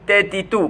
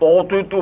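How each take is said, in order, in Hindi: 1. अक्षरों का उच्चारण हल्का और पतला होता है। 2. अक्षरों का उच्चारण भारी और मोटा होता है। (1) "পাতলাভাবে" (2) "মোটাভাবে না"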